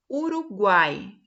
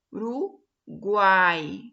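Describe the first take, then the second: First: Uruguai said slowly and firmly, stressing the A; slow demo word. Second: Uruguai drawn out very slowly and firmly, leaning on the A; very slow stretched demo. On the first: Teacher sounding out Uruguai for students. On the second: Teacher slowly stretching Uruguai for students. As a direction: stretch Uruguai even slower, syllable by syllable. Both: Shown as a demonstration. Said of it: "Tá vendo que o que se destaca é o A?".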